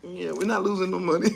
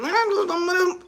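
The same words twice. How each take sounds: First: Quoted reply. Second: Higher, disbelieving echo; incredulous repeat. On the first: Comedian quoting the boardroom reply, low mock voice. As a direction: lower and softer, offhand mock voice. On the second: Comedian echoing the money claim in disbelief, higher voice. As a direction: repeat it as if you can't believe it. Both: Retold or imitated. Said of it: "somebody said".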